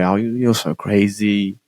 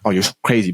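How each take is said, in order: First: It is said in a playful, joking tone. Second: It is said in a serious, non-joking tone.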